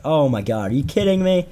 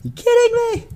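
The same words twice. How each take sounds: First: Imitating a pissed-off buddy, pitch climbing; pissed off, retold. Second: High-pitched squawk of mock outrage; imitating a furious buddy, voice shooting way up; mad, retold. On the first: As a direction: act out a friend's exasperated disbelief. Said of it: "he got so pissed". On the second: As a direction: squeal it in exaggerated disbelief. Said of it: "He was so mad".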